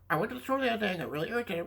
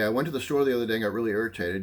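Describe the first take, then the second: First: It is said in a squawky parrot voice. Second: It is said in a normal speaking voice.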